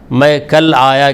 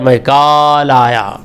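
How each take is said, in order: First: The vowel in 'kal' is short. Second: The vowel in 'kal' is drawn out long.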